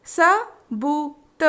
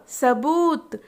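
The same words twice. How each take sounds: First: सबूत stretched very slowly; slow drawn-out word. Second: Said in the usual way. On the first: Shown as a demonstration. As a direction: draw out सबूत syllable by syllable. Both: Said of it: "तीन वर्ण वाले शब्द".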